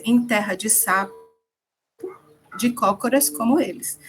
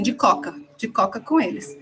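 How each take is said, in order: First: Said in the usual way. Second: "De coca" clipped, dropping the middle syllable of cócoras; popular pronunciation. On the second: Retold or imitated. Teacher to class, showing how locals say the proverb, clipped popular pronunciation. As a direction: say "de coca" the way people casually say it. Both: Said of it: "Na verdade, o povo diz assim".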